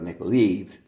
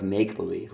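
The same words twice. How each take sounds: First: The stress falls on believe. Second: The stress falls on make. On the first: The speaker calls it wrong. "We're not playing a game of make-believe" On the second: The speaker calls it right. "usually I say a stress on the make part of make-believe"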